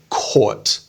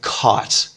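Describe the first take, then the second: First: It has an Australian vowel sound. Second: It has an American vowel sound. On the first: "in Australian English and British English" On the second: "But in American English, it would be something like caught"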